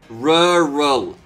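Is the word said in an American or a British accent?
British. A British accent with clearly enunciated syllables. The speaker calls it right.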